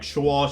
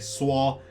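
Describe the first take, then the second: First: It has the northern retroflex 'sh' sound. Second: It has the southern flat 's' sound.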